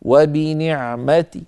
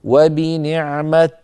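First: وبنعمة drawn out, ending in a faint -ti; stop with rawm. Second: وبنعمة drawn out, ending on a vowelless t; stop with sukun. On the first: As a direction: let a weak i follow the t in وبنعمة. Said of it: "وقفنا بالروم نقول". (الوقف على وبنعمة بالروم، بكسرة خفيفة) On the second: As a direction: cut وبنعمة off at a bare t. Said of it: "وقفنا بالسكون نقول". (الوقف على وبنعمة بتاء ساكنة) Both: Shown as a demonstration.

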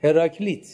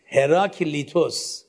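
First: هراکلیت said without the -وس ending; هراکلیت, drop the final -os; Latin form of the name. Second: هراکلیتوس said in full with the Greek ending -وس; هراکلیتوس, keep the final -os; Greek form of the name. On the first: (تلفظ لاتین هراکلیت بدون پسوند وس) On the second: (تلفظ یونانی هراکلیتوس با پسوند وس) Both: Shown as a demonstration. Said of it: "به لاتین میگین چی".

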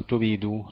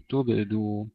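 First: تبيدو with an i slipped in after the ب; wrong vowel added. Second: تبدو with the ب closed and silent, no vowel after it; sukun on ba. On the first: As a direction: show the mistake: تبيدو with a kasra on the ب. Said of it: "لا نقول تبيدو". (تبيدو بكسر الباء خطأ) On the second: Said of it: "تبدو بالسكون وليس بالكسر". (تبدو بتسكين الباء) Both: Shown as a demonstration.

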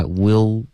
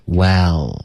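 First: "well" closed up into "will"; wrong vowel. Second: "well" slow with an open 哎 vowel. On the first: Teacher showing a student the mistake, closed vowel. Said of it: "不要发will". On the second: Teacher correcting a student's vowel, open eh. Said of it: "嘴巴张开". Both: Shown as a demonstration.

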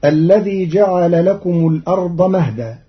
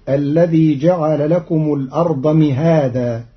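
First: "مهدا" as mahdan, short with open m; usual reading. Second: "مهادا" with kasra on m and a long a after h; mihadan. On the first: Teacher recites the usual word before the variant. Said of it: "قرأ قالون كلمة مهدا". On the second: Teacher shows students Qalun's mihadan. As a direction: recite "مهادا" as mihaadan, stretching the a. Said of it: "بكسر الميم وفتح الهاء بعدها ألف". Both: Shown as a demonstration.

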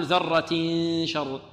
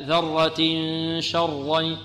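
First: ذرة شر with the ending cut short, nasal hiding missing; wrong ikhfa. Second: ذرة شرا with the tanween hidden in a nasal hum before the shin; correct ikhfa. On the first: Teacher showing students the wrong reading, trailing off. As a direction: clip ذرة شر, no nasal hum. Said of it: "لا نقول". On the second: Teacher giving students the right reading. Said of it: "لا". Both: Shown as a demonstration.

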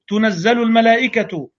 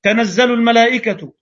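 First: تنزل said tunazzalu, with a u after the ta; second reading. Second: تنزل said tanazzalu, with an open a after the ta; first reading. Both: Shown as a demonstration.

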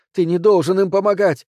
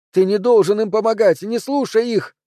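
First: Loud, higher shout stressing должен; desperate shout. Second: Near-shriek. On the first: Anne-Cécile shouts at Bastien not to help them. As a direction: yell the order at him. Repeated plea, first take. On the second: Anne-Cécile shrieks at Bastien not to listen. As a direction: escalate into a frantic shriek. Repeated plea, rising. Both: A narrator's reading.

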